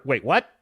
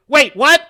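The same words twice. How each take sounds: First: Said in the usual way. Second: Loud, high, laughing disbelief; startled double-take. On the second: Acted. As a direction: blurt it out louder and higher, astonished. Repeats the reaction, louder, laughing.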